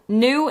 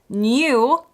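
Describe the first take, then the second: First: There is no Y sound after the N. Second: A Y sound follows the N. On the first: "new in an American accent" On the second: "and oftentimes new, I can barely say it, in a British accent"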